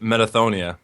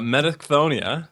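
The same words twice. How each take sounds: First: The middle 'ch' sound is left out. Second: The middle 'ch' sound is pronounced. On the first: "you can also just pronounce it" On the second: "is one way to pronounce it"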